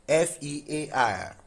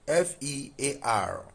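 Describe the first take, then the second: The two takes are said the same way.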